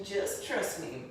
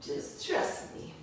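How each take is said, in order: First: "Just trust me." lower, softer and slow; repeating the intonation. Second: Whispered, higher "Just trust me."; little intonation. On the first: Retold or imitated. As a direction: echo "Just trust me." low and hushed. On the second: Shown as a demonstration. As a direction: breathe "Just trust me." as a soft whispered aside. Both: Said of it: "Did you hear that little intonation?".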